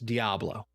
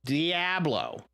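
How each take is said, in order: First: It is said plainly with an ordinary accent. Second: It is said with an exaggerated foreign accent. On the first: The speaker calls it right. "Sounds so smooth" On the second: The speaker calls it wrong. "it sounds so forced. Like I got an accent"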